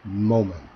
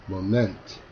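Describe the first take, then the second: First: The stress is on the first syllable. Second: The stress is on the second syllable. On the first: The speaker calls it right. "앞 음절에 강세가 있어야" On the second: The speaker calls it wrong. "강세를 뒤로 주어서"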